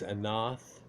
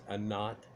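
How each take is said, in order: First: The final consonant is a TH sound. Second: The final consonant is a plain T sound. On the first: This is the classical form of the name. "where the T has the T H sound with it" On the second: This is the Phoenician form of the name.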